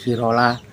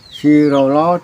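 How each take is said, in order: First: The word ends with an 'a' vowel. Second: The word ends with an 'o' vowel. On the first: This is how others may say it. "Sampai pakai sirola, datola, sipatola juga benar" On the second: This is the speaker's own way of saying it. "Cara yang saya mengucapkan seperti itu"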